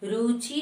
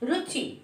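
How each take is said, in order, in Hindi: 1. पहला स्वर लंबा है। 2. पहला स्वर छोटा है। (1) "रुचि नहीं बोलते हैं" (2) "रॉ में छोटी की मात्रा"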